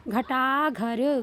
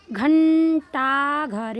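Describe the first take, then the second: First: घटा घर slowly syllable by syllable, no n; reading without nasal. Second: घंटा घर loud and slow, long n in घं; drawn-out anusvara. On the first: Teacher reading it without the sign, no nasal. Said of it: "पहले बिना मात्रा के पढ़ेंगे". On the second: Teacher reading it with the sign, drawn-out anusvara. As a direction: stretch घंटा घर syllable by syllable with held nasal. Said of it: "अंक की मात्रा लग गई". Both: Shown as a demonstration.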